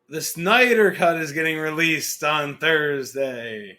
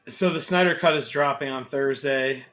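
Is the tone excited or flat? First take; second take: excited; flat. First: It is said in an excited tone. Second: It is said in a flat, unexcited tone.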